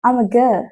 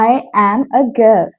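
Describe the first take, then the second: First: I am is contracted into one syllable. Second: I am is said as two full words.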